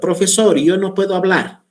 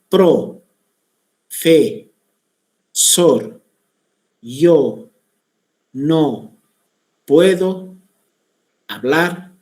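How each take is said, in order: First: The phrase flows smoothly without extra pauses. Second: Pauses break up every syllable and word. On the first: The speaker talks normally. The speaker calls it right. "Esa sería la manera correcta de indicar esta frase" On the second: The speaker has a speech disorder. The speaker calls it wrong. "Está poniendo pausas entre cada una de las partes de la palabra"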